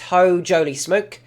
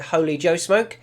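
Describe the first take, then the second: First: The name starts with the sounds 'ho jolie'. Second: The name starts with the sounds 'holy Joe'. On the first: The speaker calls it right. "but it's" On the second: The speaker calls it wrong. "I think I'll mispronounce this name a few times. I think I'll call it"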